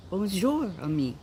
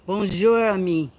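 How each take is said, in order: First: Bonjour said with a rounded French u, the voice dropping through ami; corrected French. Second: Bonjour said with a high, bright French lilt, ami trailing off; French greeting. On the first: Checking with the bodyguard, redoing it: careful French Bonjour. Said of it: "Did I say that right, correctly, bodyguard". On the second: Greeting the bodyguard, trying out French: high French Bonjour. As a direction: try the Bonjour in a sing-song French way. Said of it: "Did I say that right". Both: Shown as a demonstration.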